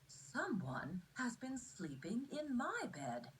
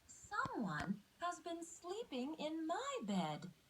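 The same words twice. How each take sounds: First: It is said in a medium-sized voice. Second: It is said in a tiny, high voice.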